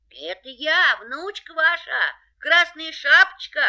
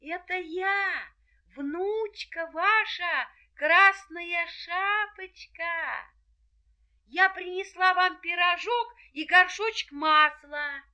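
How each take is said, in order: First: Wolf in a high, thin voice; wolf faking a little girl's voice; wolf in disguise. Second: Put-on high, slow girlish voice; a sweet little girl at the door. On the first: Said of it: "ответил волк тоненьким голоском". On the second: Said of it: "и ответила". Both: A narrator's reading.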